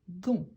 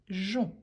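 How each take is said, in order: First: The g is hard, like the g in 'go'. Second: The g is soft, like the s in 'measure'. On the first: The speaker calls it wrong. "Pour éviter de prononcer gon" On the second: The speaker calls it right. "à la place, on dit jon"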